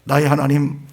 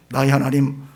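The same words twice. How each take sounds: The two takes are said the same way.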